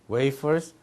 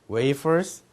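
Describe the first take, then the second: Both takes have the same delivery.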